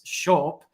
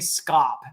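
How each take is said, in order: First: The word begins with an 'sh' sound. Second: The word begins with an 'sk' sound. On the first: The speaker calls it right. "It's shop" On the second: The speaker calls it wrong. "that is not how it's pronounced"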